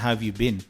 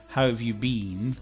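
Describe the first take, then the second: First: The word 'been' is reduced to weak form. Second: The word 'been' is said in full form. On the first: The speaker calls it right. "We'll probably say" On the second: The speaker calls it wrong. "So maybe we won't say"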